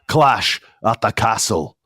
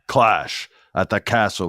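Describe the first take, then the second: First: It is said in a Scottish accent. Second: It is said in his usual American accent.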